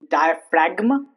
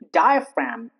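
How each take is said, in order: First: The G is pronounced. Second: The G is silent. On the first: The speaker calls it wrong. "Those are wrong" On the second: The speaker calls it right. "G before M"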